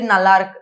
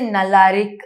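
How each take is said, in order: First: The word is said quickly with sounds squeezed together. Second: The word is said slowly with every sound drawn out. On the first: "you say it really quickly" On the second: "I will stretch it"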